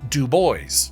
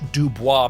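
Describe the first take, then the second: First: The name rhymes with cowboys, ending 'boyz'. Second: The name is said the French way, ending 'bwah'. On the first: This is the local pronunciation. "it rhymes with cowboys" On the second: This is the original French pronunciation. "the French Dubois pronunciation"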